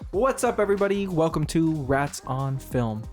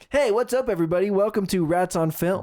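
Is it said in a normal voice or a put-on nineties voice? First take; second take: normal; nineties voice. First: It is said in his normal voice. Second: It is said in a put-on nineties voice.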